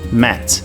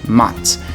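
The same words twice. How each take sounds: First: American accent, the vowel sounds closer to E. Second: British accent, the vowel sounds closer to A. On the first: "no inglês americano o som vai ser um pouco mais próximo a um E" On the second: "no inglês britânico o som vai ser mais próximo do A"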